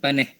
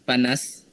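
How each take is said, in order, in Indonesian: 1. Diucapkan dalam dialek Negeri Sembilan. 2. Diucapkan dalam bahasa Melayu baku. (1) "Untuk dialek Negeri Sembilan" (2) "Untuk bahasa Melayu standard"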